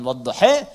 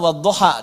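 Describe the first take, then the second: First: The final vowel is bent toward an e sound. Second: The final vowel is an open a sound. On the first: "bacaannya berbeda tapi maknanya sama" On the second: "bacaannya berbeda tapi maknanya sama"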